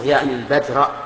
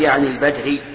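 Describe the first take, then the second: First: The last word ends with an 'a' vowel. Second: The last word ends with a 'u' vowel. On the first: The word is the object of the verb meaning. The speaker calls it right. "أنا عندي منصوبة" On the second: The word is quoted as it was, unaffected by the verb. The speaker calls it wrong. "لا تجعله على الحكاية. يعني مثلا لا تقول"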